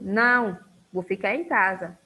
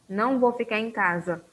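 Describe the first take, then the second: First: There is a pause after não. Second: It runs on without a pause after não.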